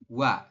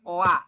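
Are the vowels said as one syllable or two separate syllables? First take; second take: one syllable; separate. First: The two vowels glide together into one syllable. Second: The two vowels are said as separate syllables. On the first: The speaker calls it right. "dibacanya langsung wa" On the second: The speaker calls it wrong. "Bukan oa"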